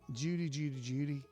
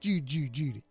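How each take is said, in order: First: It is read in the speaker's normal voice. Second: It is said in a put-on impression voice.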